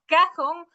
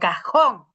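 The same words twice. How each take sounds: First: The stress is on the first syllable. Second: The stress is on the last syllable. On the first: It names nothing that exists. The speaker calls it wrong. "el cajón no existe" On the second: It names a real thing, a drawer. The speaker calls it right. "tiene que llevar el énfasis en donde está la tilde"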